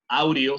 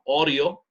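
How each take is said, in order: First: The first vowel is a Spanish-like 'a-u' glide. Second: The first vowel is a single 'o'-like sound. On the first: The speaker calls it wrong. "no digo audio" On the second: The speaker calls it right. "sino audio"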